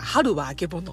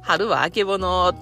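First: It is said with standard Japanese pitch intonation. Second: It is said with Kansai-dialect pitch intonation. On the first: "テレビとかでもね、…言うじゃないですか" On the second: "言わないというか"

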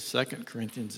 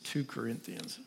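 First: It is said the usual American way. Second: It is said the South African way. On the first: "instead of 2 Corinthians" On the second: "That's the way we say it there in South Africa"

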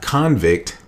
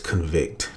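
First: It is said as the noun form. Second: It is said as the verb form. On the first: It means a person found guilty. "which is the noun form" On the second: It means to declare someone guilty. "but this is the verb form"

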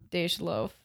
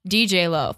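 First: The first part is said as one syllable. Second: The first part is said as two letters. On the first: The speaker calls it right. "It's Dage Loaf" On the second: The speaker calls it wrong. "I've been saying DJ Loaf"

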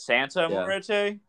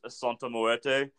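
First: The vowel sounds like a plain A. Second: The vowel sounds more like an O. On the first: The speaker calls it wrong. "I used to pronounce Santa Muerte as Santa Muerte" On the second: The speaker calls it right. "the A should be more like an O"

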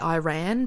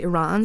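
First: Iran is said with an American pronunciation. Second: Iran is said with a non-American pronunciation. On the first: "Americans say Iran" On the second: "most people say Iran"

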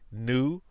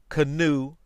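First: The word starts with an n sound, silent K. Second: The word starts with a sounded k before n. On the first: This is how the word is said today. "were not pronounced as night, new, no" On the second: This is claimed as the old pronunciation. "They were pronounced with the K"

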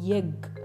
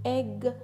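First: The word begins with a y sound. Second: The word begins directly with a vowel. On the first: "they say yegg" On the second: "instead of saying egg"

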